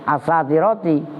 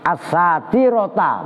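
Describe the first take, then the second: First: The word ends with a final 'ti' syllable. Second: The word ends with a final 'ta' syllable. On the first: The word describes the face. The speaker calls it wrong. "bukan as-satiroti" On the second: The word describes the turban. The speaker calls it right. "maka dibaca ta enggak ti"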